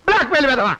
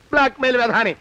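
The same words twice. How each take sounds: First: Exasperated outburst with a falling end; angry insult. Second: Resentful aside, falling away; grumbled insult. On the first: Victim cursing the blackmailer, angry insult. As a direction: fling the insult out. Same insult flung out harder. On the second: Victim giving in to the blackmailer, grumbled insult. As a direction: grumble the insult under protest. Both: Acted.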